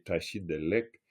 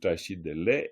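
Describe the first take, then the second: First: The final k sound is clearly pronounced. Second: The final k sound is dropped.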